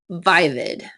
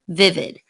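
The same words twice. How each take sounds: First: The first vowel is long. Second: The first vowel is short. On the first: The speaker calls it wrong. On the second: The speaker calls it right.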